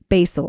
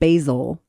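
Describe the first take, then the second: First: The middle consonant is an S sound. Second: The middle consonant is a Z sound. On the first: "like the S instead of the Z" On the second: "instead of the Z"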